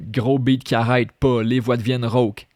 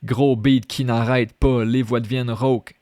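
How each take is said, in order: First: Gros beat qui arrête pas read with the contraction, qui arrête in two quick syllables; contracted reading. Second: Gros beat qui n'arrête pas with the n' pronounced; full form reading. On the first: Teacher reading the lyric line with the contraction. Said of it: "je vais lire". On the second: Teacher reading the full, uncontracted form for contrast. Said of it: "Si j'aurais écrit". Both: Shown as a demonstration.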